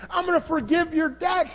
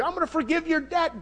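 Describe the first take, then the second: First: I'm gonna forgive your debt, shouted out, gonna rising high; shouted promise. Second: Said in the usual way. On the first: Acted. Master shouting to the servant his debt is forgiven, loud. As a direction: proclaim it with a joyful shout.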